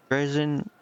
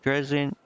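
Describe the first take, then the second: No difference in how they are said.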